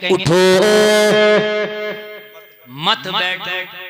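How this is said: The pause comes right after 'उठो'.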